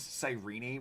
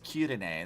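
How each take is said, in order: First: The name is said in the American way. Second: The name is said in the Japanese way. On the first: "The American is Cyrene, which I hate" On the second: "the Japanese one is is Kirine"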